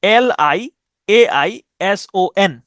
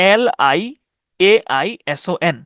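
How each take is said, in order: Both takes have the same delivery.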